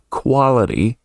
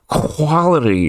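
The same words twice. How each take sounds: First: The word is said cleanly, without throat clearing. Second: The word has a throat-clearing, creaky sound. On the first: The speaker calls it right. "instead of coming out as quality" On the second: The speaker calls it wrong. "kind of throat clearing sound that that kind of shouldn't be there"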